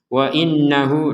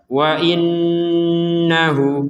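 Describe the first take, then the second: First: The doubled n has little nasal hum. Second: The doubled n is held with nasal hum. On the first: The speaker calls it wrong. "ini kurang ada dengungannya" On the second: The speaker calls it right. "Harus dengung ya. Minimal itu dua harokat"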